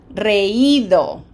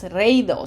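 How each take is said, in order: First: Reído as re-Í-do, slow and stressed on I; reído in three syllables, long emphasised Í; accented, separate I. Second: Reído said wrongly as REI-do, like "ray-do"; reído with the I swallowed into a stressed E; diphthong, stress on E. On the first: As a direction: split E from I in reído and lean on the I. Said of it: "we want". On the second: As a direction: run E and I together in reído as one syllable. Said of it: "and that's". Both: Shown as a demonstration.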